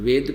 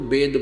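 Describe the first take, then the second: First: The word begins with a v sound. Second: The word begins with a b sound. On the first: This is how standard Hindi speakers say it. "ये शुद्ध हिंदी के जानने वाले इसको वै बोल देते हैं, वेद कह देते हैं" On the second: This is how regional saints and speakers say it. "उन्होंने वेदों को वेद बोला है, यानी हम वै को वै बोलते हैं"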